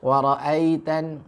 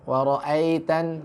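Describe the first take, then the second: No difference in how they are said.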